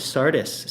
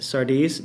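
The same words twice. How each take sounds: First: Sardis said SAR-diss, with a short i and hissed s; unsure pronunciation. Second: Sardis said SAR-deez, questioning rise at the end; unsure pronunciation. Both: Shown as a demonstration. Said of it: "I don't know how to say Sardis".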